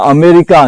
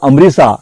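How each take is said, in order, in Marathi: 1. 'c' चा उच्चार 'k' सारखा होतो. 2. 'c' चा उच्चार 's' सारखा होतो. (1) "लॅटिन भाषेमध्ये आपण क करतो" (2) "सी हा उल्लेख सीस केला"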